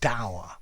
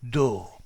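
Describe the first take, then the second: First: The vowel rhymes with 'our'. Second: The vowel rhymes with 'door'. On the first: "I've always pronounced this word dour ... I say dour like in our" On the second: "lots of people who pronounce this dur ... like tall ... door"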